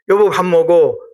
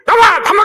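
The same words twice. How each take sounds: First: It is said in a calm, gentle tone. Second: It is said in a harsh, fierce tone.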